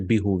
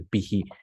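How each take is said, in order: First: The word ends with an 'oo' vowel. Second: The word ends with an 'ee' vowel. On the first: The speaker calls it wrong. "We don't say bihu" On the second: The speaker calls it right. "We say bihi"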